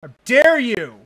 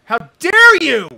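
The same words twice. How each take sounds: First: Loud outraged demand; outraged, loud but held back; shaking with anger. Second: Screaming, very high and very loud; shaking with anger. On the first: First outraged cry. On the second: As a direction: scream it with full outrage. Repeated even louder. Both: Real, not acted.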